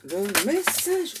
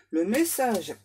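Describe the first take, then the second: First: "message" stretched out slowly with a big swoop; drawn-out MESSAGE. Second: Said in the usual way. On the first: Real, not acted. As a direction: draw out "message" in an overexcited swoop. Over-eager take, then tells to calm down.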